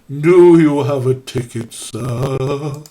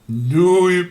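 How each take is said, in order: First: It is said in a spooky voice. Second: It is said in a normal voice.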